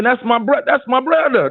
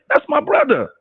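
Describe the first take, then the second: First: Higher, excited inner thought. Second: Much higher proud thought; inner voice. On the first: To himself about [name], a proud higher voice. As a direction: think it with pride, higher up. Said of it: "That's what I'm thinking". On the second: Repeating his thought about [name], high and proud. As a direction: lift it high, like claiming kin. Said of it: "That's what I was thinking". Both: Retold or imitated.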